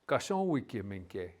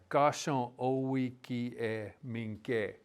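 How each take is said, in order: First: Said quickly, with the middle vowel dropped away. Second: Said slowly, with the middle vowel clearly heard. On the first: "when you say it fast, it kind of just vanishes almost" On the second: "if you say it slow, it's in there"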